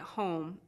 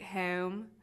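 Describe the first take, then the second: First: The O vowel is pronounced further back. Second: The O vowel is pushed forward, fronted.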